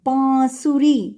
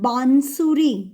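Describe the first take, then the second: First: The vowel is lightly nasalized, no full n. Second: The nasal is a full n consonant. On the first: The speaker calls it right. "little nasal sound" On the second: The speaker calls it wrong. "It's not bansuri"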